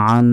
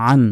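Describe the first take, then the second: First: আন with the final n held long in a nasal hum; wrong long nasal hold. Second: আন ended promptly, without holding the n; quick, no ghunna. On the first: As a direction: drag out the n of আন. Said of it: "এভাবে বলা যাবে না". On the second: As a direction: say আন with a short final n. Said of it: "দ্রুত". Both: Shown as a demonstration.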